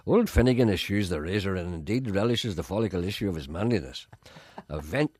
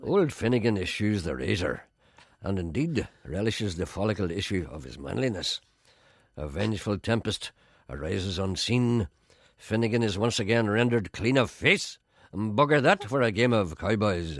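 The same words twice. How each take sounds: First: Pompous poetry reading; mock grand recital. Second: Slow, grand poetry reading; slower recital. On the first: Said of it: "here's my Nobel Prize version". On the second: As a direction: recite it slowly, savouring words. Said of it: "I'll do it a bit slower". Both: Shown as a demonstration.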